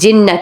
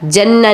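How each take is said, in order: First: The first vowel is a short 'i' sound. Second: The first vowel is an open 'a' sound. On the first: The speaker calls it right. "जिन्ना कहेंगे" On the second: The speaker calls it wrong. "नहीं"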